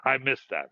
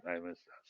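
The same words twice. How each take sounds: First: Said in the usual way. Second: Soft repeat to himself; murmured under the breath; quiet echo. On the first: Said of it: "repeated quieter". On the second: Real, not acted. Recalling old privileges, quiet murmured echo. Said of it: "repeated louder first".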